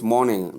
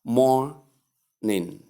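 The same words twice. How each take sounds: First: "morning" with a sounded nga at the end; correct ng ending. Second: "morning" slowly in two parts, ending on plain n; wrong n ending. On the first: Teacher telling learners what to call it, correct ng ending. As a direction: say morning as MOR-ning-uh. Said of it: "So you call it". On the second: Teacher showing learners what to avoid, wrong n ending. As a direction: say morning broken as MOR... nin. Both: Shown as a demonstration.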